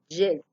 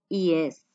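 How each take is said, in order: First: The first sound is hard, like a 'j'. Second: The first sound is soft, like an 'ee'. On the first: The speaker calls it wrong. "No pronuncien tan, tan marcada la Y de yuca" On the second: The speaker calls it right.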